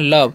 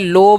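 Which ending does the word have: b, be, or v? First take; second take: v; b. First: The word ends with a v sound. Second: The word ends with a plain b sound. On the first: The speaker calls it right. "इसे पढ़ना है लव" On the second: The speaker calls it wrong. "लोब या लोबे पढ़ देते हैं तो ... pronunciation जो है गलत हो जाएगा"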